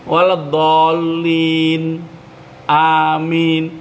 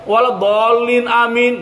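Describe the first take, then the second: First: A short pause separates the two words. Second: The two words run together without a pause. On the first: The speaker calls it right. "Jangan pakai ambegan" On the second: The speaker calls it wrong. "Tidak juga boleh waladhdallin amin, enggak boleh"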